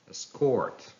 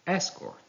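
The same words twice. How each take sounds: First: "escort" as es-CORT; stress on second syllable. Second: "escort" as ES-cort, high start; stress on first syllable. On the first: Teacher reading a verb, "escort" stressed on CORT. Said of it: "stress falls on the second syllable". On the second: Teacher reading a noun, "escort" stressed on ES. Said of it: "stress on the first syllable". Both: Shown as a demonstration.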